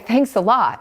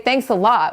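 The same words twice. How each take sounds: First: It sounds warm and sincerely grateful. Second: It sounds annoyed and sarcastic. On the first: The speaker truly appreciates something. "Like, I really appreciate that" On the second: The speaker is irritated by what someone did. "What, what were you thinking?"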